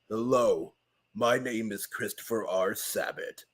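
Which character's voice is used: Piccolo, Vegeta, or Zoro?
Piccolo. It is said in Piccolo's voice.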